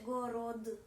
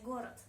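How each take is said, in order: First: Город said with final d and a little vowel after it, gorodə; город pronounced slowly with a full d; over-careful wrong take. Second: Город said gor, the final d clipped to t; easy, relaxed город; natural correct take. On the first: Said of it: "C'est difficile à prononcer". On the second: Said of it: "trop d'efforts". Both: Shown as a demonstration.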